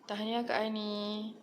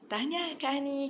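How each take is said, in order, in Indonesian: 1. Diucapkan dengan nada datar, tidak bersemangat. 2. Diucapkan dengan nada ceria, penuh semangat. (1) "itu itu intonasi yang salah" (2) "kita kena bagi dengan nada yang ceria"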